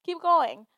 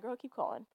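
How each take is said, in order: First: Higher and louder, pushing yourself on; rally yourself with a stronger push; firm self-pep. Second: A quiet nudge to yourself, barely above talk; soft self-encouragement. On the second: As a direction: softly tell yourself to keep going. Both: Retold or imitated. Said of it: "another, like, battery in my back to, like".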